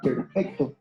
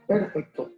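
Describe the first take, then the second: First: The stress is on the second syllable. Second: The stress is on the first syllable. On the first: The speaker calls it right. "En la segunda sílaba" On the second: The speaker calls it wrong. "Si pongo la mayor fuerza en la primera sílaba"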